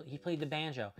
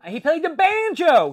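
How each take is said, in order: First: Said in the usual way. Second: Loud, high burst of sudden recall; excited outburst. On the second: Real, not acted. Suddenly remembers the detail.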